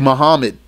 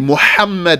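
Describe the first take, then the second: First: The middle has a weak plain h sound. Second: The middle has a strong breathy h sound. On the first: The speaker calls it wrong. "Don't say Muhammad" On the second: The speaker calls it right. "say Muhammad with a ha"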